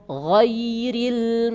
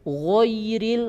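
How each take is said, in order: First: The first vowel is an open a sound. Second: The first vowel is rounded toward o. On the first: The speaker calls it right. "perhatikan baik-baik ya bibir ya" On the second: The speaker calls it wrong. "Jangan gho, ... itu salah"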